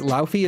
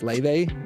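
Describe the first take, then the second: First: The name is said with an f sound. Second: The name is said with a v sound. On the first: This is how the name is read silently, from the spelling. The speaker calls it wrong. "It's Laufey in my head" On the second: This is how the name is properly pronounced. The speaker calls it right. "it's [name] if you're like saying it correctly"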